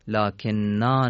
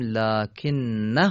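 First: The word ends in a long a vowel. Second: The word ends in a short a vowel. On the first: The reading follows the written alef. The speaker calls it wrong. "لکن نا نوشته شده" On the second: The reading continues without stopping. The speaker calls it right. "باید بگیم لکن نه"

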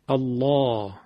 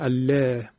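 First: The l sound is thick and throaty. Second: The l sound is thin and clear. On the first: The speaker calls it right. "باید غلیظ بشه، غلظتش هم از تو حلق ایجاد میکنیم" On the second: The speaker calls it wrong. "نمیگیم الله"

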